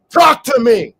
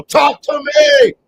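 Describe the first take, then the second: First: Higher and louder but not a full shout; strong call, less than a scream. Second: Very high, loud shout; high piercing shout, slowed. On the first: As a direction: repeat the call firmly. Repeats the call. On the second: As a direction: call out to them full force. Shouting to the audience. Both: Real, not acted.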